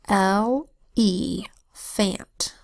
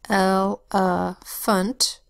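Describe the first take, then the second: First: Every syllable keeps a full, clear vowel. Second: The later vowels are reduced to a weak uh. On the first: It is said this way to help with spelling. "So I will say to spell" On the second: This is the normal casual way to say it. "So normal pronunciation is"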